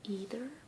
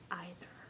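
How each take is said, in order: First: The first vowel is one long E sound. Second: The first vowel blends an E and an I. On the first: "take the E I to be long" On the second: "pronounce both the E and the I"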